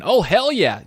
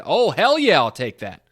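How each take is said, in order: First: Loud, self-mocking replay of the cheer; nerdy excitement repeated. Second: Loud, eager outburst; nerdy excitement. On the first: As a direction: echo your own cheer, poking fun at it. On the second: Acted. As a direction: blurt it out like an excited fan. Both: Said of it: "I sounded like a real nerd there saying".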